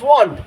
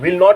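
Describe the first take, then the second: First: The words merge into one short syllable. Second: Both words are said fully and separately. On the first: "तो विल नॉट is वॉन्ट" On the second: "विल नॉट लिखो तो भी सही है"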